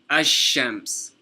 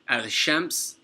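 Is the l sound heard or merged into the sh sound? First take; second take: merged; heard. First: The l merges into a doubled sh sound. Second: The l sound is pronounced before sh. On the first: The speaker calls it right. "you say ash-shams" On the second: The speaker calls it wrong. "instead of saying al-shams"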